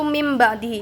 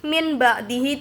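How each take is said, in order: First: The first word ends with an m sound. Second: The first word ends with an n sound. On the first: The speaker calls it right. "Jadi cara bacanya itu mim ba'dihi" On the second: The speaker calls it wrong. "min ba'dihi itu salah"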